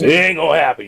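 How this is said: It is said in a put-on imitated voice.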